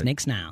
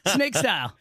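First: The second word is said as snile. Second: The second word is said as style. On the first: The speaker calls it wrong. "I went snile on purpose" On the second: The speaker calls it right. "but snake style"

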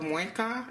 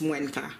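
First: It is said without the extra N sound. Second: It is said with an extra N sound. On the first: "Instead of muenka" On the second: "but it's muenka, okay, with the extra N"

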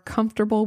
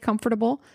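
First: The middle syllables are reduced in the usual way. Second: Every syllable is pronounced as it is spelled. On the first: This is the way most people say it. The speaker calls it right. "Now I say comfortable because that's what people are comfortable with" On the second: This is an odd personal habit. The speaker calls it wrong. "I used to say comfortable. ... that's how it's spelled"

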